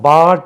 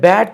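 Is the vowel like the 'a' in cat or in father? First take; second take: father; cat. First: The vowel is the open 'ah' of father. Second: The vowel is the short 'a' of cat. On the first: The speaker calls it wrong. "பாட் என்று கூட தவறாக உச்சரிக்கலாம்" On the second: The speaker calls it right. "பேட் என்று நம்மளுக்கு சொல்ல தெரியாமல் இருந்தால்"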